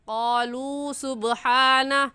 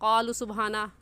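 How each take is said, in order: First: The final vowel of the first word is drawn out. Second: The final vowel of the first word is short. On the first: The speaker calls it right. "सही है क़ालू सुब्हाना। क़ालू को हमने क्यों खींचा?" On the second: The speaker calls it wrong. "गलत है"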